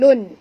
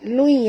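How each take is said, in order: First: The syllable ends with a clear n. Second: The n merges into a nasalized glide. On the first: The speaker calls it wrong. "bukan lun" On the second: The speaker calls it right. "Lui ya"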